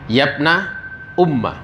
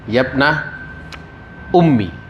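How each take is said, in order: First: The last word ends with an 'a' vowel. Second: The last word ends with an 'i' vowel.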